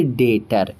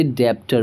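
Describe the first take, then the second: First: डेटर with the b silent, straight to the t; correct pronunciation. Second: डेप्टर with the b sounded, like a mistake; wrong pronunciation. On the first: Teacher gives students the correct reading, b silent. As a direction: say डेटर with no p sound at all. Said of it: "तो हम इसे पढ़ेंगे डेटर". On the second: Teacher shows students the wrong reading, sounding the b. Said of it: "बिना जाने तो हम इसे पढ़ते". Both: Shown as a demonstration.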